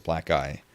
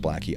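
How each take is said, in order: First: "Black Guy" with a long "eye" ending; alternative pronunciation. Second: "Blackie" ending in an "ee" sound; preferred pronunciation. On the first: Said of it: "some people pronounce it". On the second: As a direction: say "Blackie" to rhyme with "tacky". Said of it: "he wants it pronounced Blackie". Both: Shown as a demonstration.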